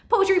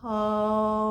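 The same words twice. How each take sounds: First: It is said very fast. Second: It is said very slowly.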